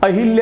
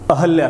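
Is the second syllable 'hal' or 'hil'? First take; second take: hil; hal. First: The second syllable is said 'hil'. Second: The second syllable is said 'hal'. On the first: The speaker calls it wrong. "अहिल्या ही बोला जाता है सामान्यतः" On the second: The speaker calls it right. "ध्यान रखिएगा, ना कि अहिल्या"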